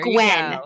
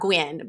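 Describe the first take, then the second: First: The name is said with a standard vowel. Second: The name is said with a Southern vowel. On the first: The speaker calls it right. "it's G-W-E-N. So it's probably there Gwen" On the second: The speaker calls it wrong. "I say it Southern"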